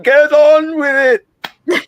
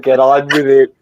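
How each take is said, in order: First: It is said in a Monty Python-style voice. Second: It is said in the speaker's normal voice.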